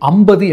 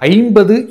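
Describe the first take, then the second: First: The sounds are reduced in an everyday way. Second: Every sound is said fully and carefully. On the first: The speaker calls it wrong. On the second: The speaker calls it right.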